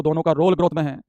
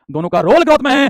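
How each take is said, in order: First: Said in the usual way. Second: "role growth" lifted high and louder; emphatic repeat. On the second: Real, not acted. Teacher stressing both hormones' role, "role growth" pitched high. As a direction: drive "role growth" home on a raised pitch.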